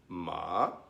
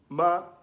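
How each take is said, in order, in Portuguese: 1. É dito com o tom que significa cavalo. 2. É dito com o tom que significa mãe. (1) "Ma é cavalo" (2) "ma significa mãe"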